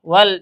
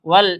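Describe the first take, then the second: Both takes have the same delivery.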